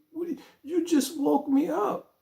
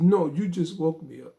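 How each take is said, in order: First: Woken up, exasperated. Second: Said in the usual way. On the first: Retold or imitated. Woken by a 4 a.m. call.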